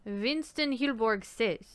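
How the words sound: It is said in a put-on accent.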